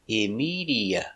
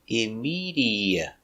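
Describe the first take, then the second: Both takes have the same delivery.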